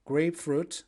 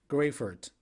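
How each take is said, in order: First: "Grapefruit" with a clear fruit at the end; English pronunciation. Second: "Grapefruit" as grey-furt, no p; Turkish pronunciation. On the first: Teacher giving the English name, "Grapefruit" ending in a full fruit. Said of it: "very similar to English one". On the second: Teacher giving the Turkish name, "Grapefruit" said as grey-furt. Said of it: "We say grapefruit in Turkish". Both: Shown as a demonstration.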